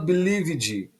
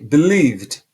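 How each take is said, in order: First: The final e is pronounced as an extra syllable. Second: The final e is silent, no extra syllable. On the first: The speaker calls it wrong. "você não fala believed" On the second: The speaker calls it right. "Com o som do V mudo, como se esse E não existisse"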